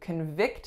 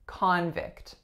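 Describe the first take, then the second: First: The stress is on the second syllable. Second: The stress is on the first syllable. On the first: It is a verb: to find someone guilty. "we are putting our stress on the second syllable" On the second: It is a noun: a person convicted of a crime. "My winning syllable is the first"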